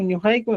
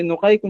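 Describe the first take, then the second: First: "ñujaiku" with palatal Ñ and U; ÑU at the start. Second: "nojaiku" with plain N and O; NO at the start. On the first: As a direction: begin "ñujaiku" with "nyu". ("ñujaiku" empezando con "ñu") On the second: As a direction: begin "nojaiku" with "no". ("nojaiku" empezando con "no") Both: Shown as a demonstration. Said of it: "en vez de nojaiku".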